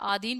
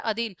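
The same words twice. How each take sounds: First: आधीन said with a long आ at the start; Hindi में गलत उच्चारण आधीन, लंबा आ; wrong long vowel. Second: अधीन said with a short अ at the start; शुद्ध उच्चारण अधीन, छोटा अ; correct short vowel. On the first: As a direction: stretch the first vowel of आधीन, aadheen. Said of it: "जैसे आधीन बोल देते हैं". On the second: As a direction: clip the first vowel of अधीन, adheen. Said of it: "शुद्ध रूप होता है अधीन". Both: Shown as a demonstration.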